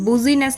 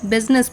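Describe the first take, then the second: First: The word is said with three syllables. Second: The word is said with two syllables. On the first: The speaker calls it wrong. "बुजीनेस नहीं पढ़ते हम इसको" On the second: The speaker calls it right. "बिजनेस पढ़ते हैं"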